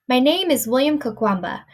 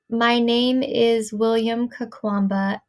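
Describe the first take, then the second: First: It is read smoothly in connected phrases. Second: It is read word by word, choppily. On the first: The reader attends to how the words relate. The speaker calls it right. "try to go from something like that to" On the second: The reader focuses only on pronouncing each word. The speaker calls it wrong. "reading it as someone who is not focusing on this might read it"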